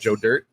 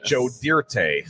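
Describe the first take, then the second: First: The name is said plainly with no extra ending. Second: The name gets an extra fancified ending sound. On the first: The speaker calls it right. "not Joe Dirt" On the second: The speaker calls it wrong. "over fancifying that"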